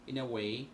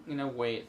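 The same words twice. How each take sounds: The two takes are said the same way.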